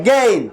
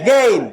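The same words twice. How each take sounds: Both takes have the same delivery.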